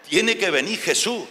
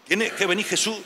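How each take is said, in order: Both takes have the same delivery.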